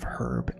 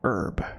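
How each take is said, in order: First: The word starts with an h sound. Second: The word starts without an h sound. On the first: This is the way people from England say it. "instead of herb" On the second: This is the American way, picked up from French. "when we say herb ... even though there's an H in the word"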